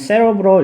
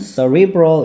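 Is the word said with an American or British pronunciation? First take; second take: British; American. First: The word is said with a British pronunciation. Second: The word is said with an American pronunciation. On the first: "영국식으로 발음하면은 cerebral 이렇게 발음하기도 하고" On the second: "미국식으로는 cerebral 이렇게 발음하기도 합니다"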